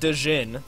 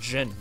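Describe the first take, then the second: First: The d and j sounds are split apart. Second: The d and j sounds blend into one. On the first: The speaker calls it wrong. "It's not Dejin" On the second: The speaker calls it right. "That's how you say it. That's a DJ noise together"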